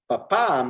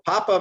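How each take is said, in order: First: The stress is on the last syllable. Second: The stress is on the first syllable. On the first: It means dad. "we have to switch the emphasis" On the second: It means potato. "naturally speaking, Spanish is uh, going to be emphasized on the second to last syllable"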